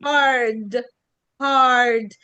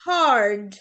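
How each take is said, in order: First: هارد as haad with the R silent and a long A; هارد without any R; R dropped. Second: هارد with a heavy R sounded; هارد with a full Arabic R; wrong hard. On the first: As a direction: stretch the A in هارد and drop the R. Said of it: "ال R بتتشال". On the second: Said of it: "مش هارد". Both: Shown as a demonstration.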